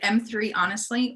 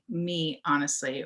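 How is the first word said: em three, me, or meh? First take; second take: em three; me. First: The first word is said as 'em three'. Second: The first word is said as 'me'. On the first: "is it M three, honestly?" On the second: "Or do you say, like, me, honestly"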